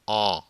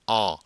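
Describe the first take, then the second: Both takes have the same delivery.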